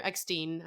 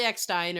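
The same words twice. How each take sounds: First: "Eckstein" ending like "steen"; alternative pronunciation. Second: "Eckstein" ending like "stine"; pronunciation variant. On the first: Offering the other surname reading, "Eckstein" with a "steen" ending. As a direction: say "Eckstein" to rhyme with "seen", softer. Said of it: "or Eckstein, I think". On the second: Unsure of actress's surname, "Eckstein" said with a "stine" ending. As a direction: say "Eckstein" to rhyme with "fine". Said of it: "I think it's Eckstein". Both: Shown as a demonstration.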